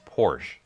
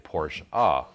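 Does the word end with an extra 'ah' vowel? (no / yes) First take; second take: no; yes. First: The word ends without an added vowel. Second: The word ends with an added 'ah' vowel. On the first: "the way that I was always told to properly say the word Porsche is just" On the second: "you also hear people say Porsche ah with an A type sound at the end"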